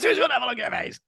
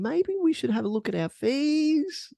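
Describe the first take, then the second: First: The voice falls at the end like a statement. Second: The voice rises at the end like a question.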